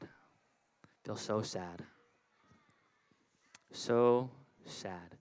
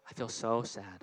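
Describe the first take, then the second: First: Slow, droopy mock-sad sigh of a voice. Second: Mock sad. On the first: Pastor acting sad for the children, slow and mopey. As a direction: drag it out like a sulking kid. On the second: Acting out an empty bucket. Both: Shown as a demonstration.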